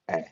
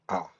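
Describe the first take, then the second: First: A flat front vowel, as in cat. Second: An open 'ah' vowel, as in father. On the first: The speaker calls it wrong. "never like ah, as in cat" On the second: The speaker calls it right. "A is only pronounced as ah, as in father"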